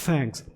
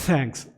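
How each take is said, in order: The two takes are said the same way.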